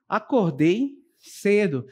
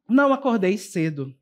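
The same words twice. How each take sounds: First: Slow statement, falling on "cedo"; declarative intonation. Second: Said in the usual way. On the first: Shown as a demonstration. Teacher giving an affirmative statement example, slow and falling. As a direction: state it slowly and plainly. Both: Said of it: "elas são frases declarativas".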